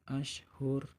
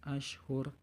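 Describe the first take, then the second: No difference in how they are said.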